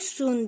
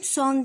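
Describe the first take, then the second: First: The vowel is a long 'oo' sound. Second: The vowel is a short 'o' sound. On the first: The speaker calls it right. "soon diye okunuyor" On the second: The speaker calls it wrong. "Son diye okunmuyor"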